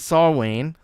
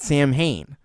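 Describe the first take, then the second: First: It is said with a w sound, no m. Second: It is said with an m and an h. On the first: The speaker calls it right. "It is Saw Saw Wayne" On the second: The speaker calls it wrong. "I used to call it Sam Hain. That is not correct"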